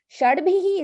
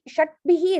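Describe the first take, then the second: First: The first word ends in a voiced d. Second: The first word ends in a voiceless t. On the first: The speaker calls it right. "Shad bihi is easier" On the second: The speaker calls it wrong. "shat bihi is hard"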